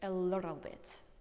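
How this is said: The t is flapped, American style.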